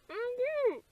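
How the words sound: The voice is heavily muffled.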